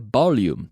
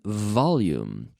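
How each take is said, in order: First: The word begins with a B sound. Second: The word begins with a buzzing V sound. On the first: The speaker calls it wrong. "Please never say volume. If you if you pronounce it as a B" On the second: The speaker calls it right. "vibrating my lips"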